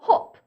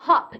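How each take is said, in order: First: It is said with a British accent. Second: It is said with an American accent.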